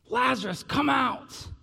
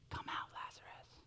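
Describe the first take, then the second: First: It is shouted in a loud voice. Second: It is said quietly and calmly.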